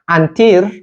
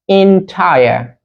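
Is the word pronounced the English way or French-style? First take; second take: French-style; English. First: The word is pronounced with French-style sounds. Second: The word is pronounced with English sounds. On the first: The speaker calls it wrong. "on ne dit pas entire, no" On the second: The speaker calls it right. "Ça se prononce entire"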